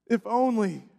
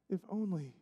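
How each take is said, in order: First: Said in the usual way. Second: Fading lament. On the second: Acted.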